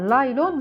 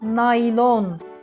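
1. Kelime L sesiyle başlıyor. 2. Kelime N sesiyle başlıyor. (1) "Laylon diye bir şey yok çocuklar. Laylon değil bu" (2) "Ne olması gerekiyor normalde? Naylon"

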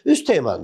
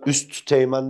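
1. üst kelimesinin sonundaki t düşer. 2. üst kelimesinin sonundaki t telaffuz edilir. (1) "Buradaki T'yi düşürdü" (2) "ben üst teğmen demiyorum ki"

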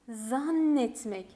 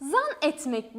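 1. N sesi uzun ve ikiz. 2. N sesi kısa ve tek. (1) "Bakın ikizleşti" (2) "Zan etmek değil"

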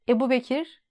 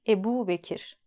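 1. U ünlüsü kısa. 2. U ünlüsü uzatılır. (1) "Ebu Bekir değil" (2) "U'yu uzun söylüyoruz"

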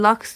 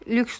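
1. Ünlü, açık 'a' sesi. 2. Ünlü, yuvarlak ön 'ü' sesi. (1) "Biliyorum laks dendiğini" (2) "ben lüks demek istiyorum"

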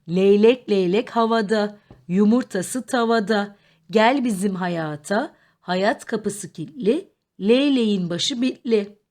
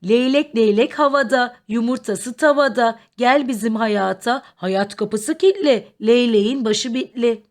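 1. Tekerleme normal hızda okunuyor. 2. Tekerleme hızlı okunuyor.

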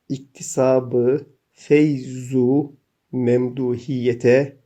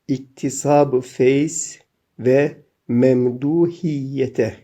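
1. Bir 'u' sesi doğrudan birinci isme bitişir. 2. Ayrı bir 've' kelimesi iki ismi birbirine bağlar.

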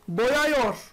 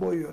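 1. -yor ekinden önceki ünlü geniş bir 'a'dır. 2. -yor ekinden önceki ünlü dar bir 'u'dur. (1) "Yani söylerken bile tuhaf" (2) "Ne diyeceğim?"

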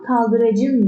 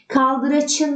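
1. Ekten önceki ünsüz j. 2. Ekten önceki ünsüz ch. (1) "derim. C'ye dönüştü"

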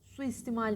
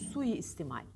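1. Ortadaki i sesi kısa ve tektir. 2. Ortadaki i sesi çift ve uzundur. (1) "Suistimal değil" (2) "Çift i ile"

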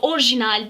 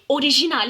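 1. R ile J arasında sesli harf yok. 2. R ile J arasında I sesli harfi duyuluyor. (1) "Doğrusu orijinal değil" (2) "ortasında i harfi olacak"

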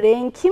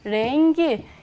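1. Son ünlüden önceki ünsüz k. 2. Son ünlüden önceki ünsüz g. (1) "Peki ben burada renki mi diyorum? Hayır" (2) "k'miz g'ye dönüştü"

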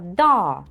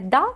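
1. Голосний тягнеться довго. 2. Голосний короткий. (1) "як довга така" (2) "Ми не да кажемо"

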